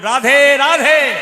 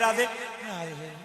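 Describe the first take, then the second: First: It is said in a cheerful, lively way. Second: It is said in a sad, listless way. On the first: The speaker calls it right. "যেরকম Radhe Radhe" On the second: The speaker calls it wrong. "কি দুঃখ করে বলছি"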